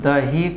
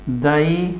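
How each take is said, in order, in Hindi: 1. बीच की ह ध्वनि साफ़ तौर पर सांस के साथ बोली जाती है। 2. बीच की ह ध्वनि गिर जाती है या कमज़ोर हो जाती है।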